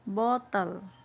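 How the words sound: It is said with a British accent. "Kalau versi U K, itu dia sebut bottle"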